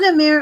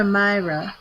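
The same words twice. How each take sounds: First: Amir said "uh-MEER-uh", long ee; ee in the middle. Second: Amira said "uh-MY-ruh"; eye in the middle. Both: Shown as a demonstration. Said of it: "Is it Amir or Amira?".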